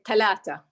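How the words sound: The consonants are said as t sounds. "they say talata"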